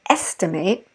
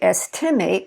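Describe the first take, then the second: First: The stress is on the first syllable. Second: The stress is on the last syllable. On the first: The speaker calls it right. "we said estimate" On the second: The speaker calls it wrong. "We didn't say estimate"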